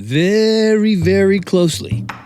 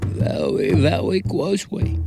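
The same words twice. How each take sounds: First: It is said in his normal voice. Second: It is said in an Elmer Fudd voice.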